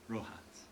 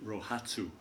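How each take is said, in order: First: The word is pronounced the Japanese way. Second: The word is pronounced the usual English way. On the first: The speaker calls it right. "I'm going to try to do it right this time" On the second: The speaker calls it wrong. "A lot of times in English we pronounce it Rohatsu, but that's not exactly right"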